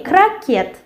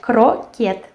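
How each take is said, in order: First: Крокет as "kra-KYET"; first vowel of крокет opened to A; as spoken, with A. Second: Croquet spelt out as "kro-kyet"; as written, with O. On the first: Teacher shows how it is said, with A. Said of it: "of course we say крокет". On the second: Teacher reads it as written, with O. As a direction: clear O in croquet and a sounded T. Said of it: "but we write croquet". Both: Shown as a demonstration.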